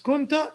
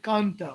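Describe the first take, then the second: First: The first vowel is u. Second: The first vowel is a. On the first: The speaker calls it right. "It's kunta because that's how they said it" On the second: The speaker calls it wrong. "or I prefer to say kanta"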